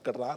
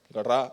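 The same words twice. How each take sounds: First: It is said in a humble, gentle tone. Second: It is said in a harsh, blunt tone. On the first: It is a polite, kind invitation. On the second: It is a stern command.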